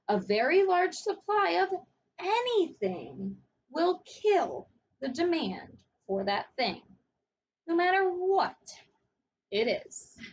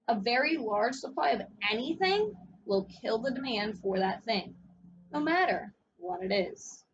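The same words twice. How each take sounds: First: It is said much more slowly. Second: It is said at normal speed.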